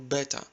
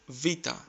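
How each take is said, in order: First: The word begins with a b sound. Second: The word begins with a v sound. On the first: The speaker calls it wrong. "You must have heard it like beta" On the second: The speaker calls it right. "Replace the letter B with V and try to say vita"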